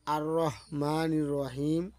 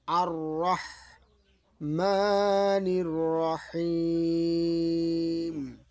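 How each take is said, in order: First: Ar-Rahmanir Rahim spoken without chanting; short vowels in Rahmanir Rahim, as in talk; wrong, unstretched Rahim. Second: Slow chant with drawn-out Rahim; sung, hold the long vowels on a level note; sung, Quran recitation. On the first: Teacher showing the mistake if we say it so, unstretched Rahim. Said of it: "উচ্চারণটা বাতিল হয়ে গেল". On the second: Sung, teacher reciting next verse for learners, slow tilawat. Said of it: "আমরা সূরা ফাতিহা তেলাওয়াত করব". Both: Shown as a demonstration.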